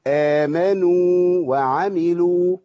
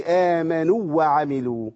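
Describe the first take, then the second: First: آمنوا وعملوا with the واو of آمنوا held long and kept apart from the next واو; slow, each واو clearly separate; correct tajweed. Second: آمنوا وعملوا with the two واو run together, no hold; the mistaken reading with the two واو merged; wrong merged reading. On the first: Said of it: "يبقى أقول إيه؟". (آمنوا وعملوا بتمكين المد) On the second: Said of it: "ما أقولش". (آمنوا وعملوا بالإدغام الخطأ) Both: Shown as a demonstration.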